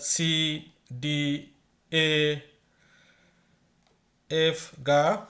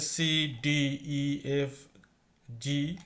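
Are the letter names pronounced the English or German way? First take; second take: German; English. First: The letters are named with German pronunciation. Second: The letters are named with English pronunciation. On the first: "আসল উচ্চারণটা হচ্ছে" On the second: "তা আমি সব ইংলিশে উচ্চারণ করলাম।"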